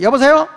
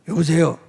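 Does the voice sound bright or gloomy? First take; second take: bright; gloomy. First: It is said in a bright, high, cheerful voice. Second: It is said in a low, gloomy voice. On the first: The caller feels welcomed and cheered. The speaker calls it right. "쏠음으로 전화 받을 때도" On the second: The caller wonders if something is wrong. The speaker calls it wrong. "그러면 나도 벌써 우울해져"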